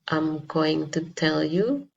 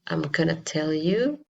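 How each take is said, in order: First: Going to is said as two full words. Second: Going to is shortened into one word, gonna. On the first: "instead of saying" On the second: "they will say"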